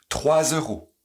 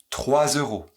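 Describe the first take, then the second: The two takes are said the same way.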